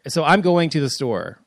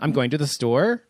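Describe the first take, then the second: First: The voice falls at the end. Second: The voice rises at the end.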